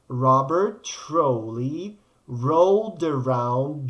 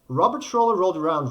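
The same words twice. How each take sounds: First: The phrase is said slowly and carefully. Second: The phrase is said very quickly. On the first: "make it more slowly" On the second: "really quickly"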